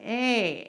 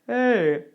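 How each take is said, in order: First: The vowel sounds edgy, with a bright twang. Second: The vowel sounds plain, without an edgy twang. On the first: The speaker calls it right. "we're actually looking for a little bit of edge in there, like hey" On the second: The speaker calls it wrong. "rather than hey"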